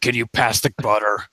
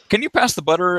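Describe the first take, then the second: First: It is said in a raspy, smoky old woman's voice. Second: It is said in a plain, normal child's voice. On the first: "the voice of like the smoking Italian grandmother" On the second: "the blonde girl's like"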